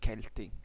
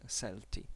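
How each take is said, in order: First: The word begins with a hard K sound. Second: The word begins with a soft S sound. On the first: The speaker calls it right. "in pronunciatio restituta, it's" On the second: The speaker calls it wrong.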